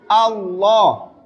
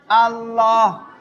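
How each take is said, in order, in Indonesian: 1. Vokal a terdengar tebal dan berat. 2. Vokal a terdengar tipis dan ringan. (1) "fathahnya tebal" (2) "bukan Allah"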